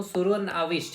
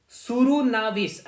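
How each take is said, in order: First: Said in the usual way. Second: सुरुनाविस stretched slowly at a higher pitch; careful sounding-out. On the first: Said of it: "गलत pronunciation करूं". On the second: Shown as a demonstration. Teacher giving students a hard title to memorise, careful sounding-out. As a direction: draw out सुरुनाविस, high then falling. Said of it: "ऐसे ही याद रखिएगा".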